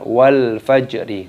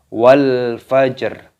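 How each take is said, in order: First: The final r carries an added i vowel. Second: The final r is silent-voweled, ending the word. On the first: The reader continues without stopping. The speaker calls it wrong. "bukan wal fajri" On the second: The reader stops at this verse. The speaker calls it right. "Dibaca wal fajr"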